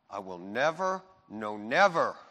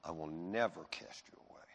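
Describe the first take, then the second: First: "never" repeated, the second one hit louder; "no, never" driven home firmly; emphatic NEVER. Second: Said in the usual way. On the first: Retold or imitated. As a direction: lean hard on each "never", pausing after it. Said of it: "what is called an emphatic". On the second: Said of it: "What he's saying is this".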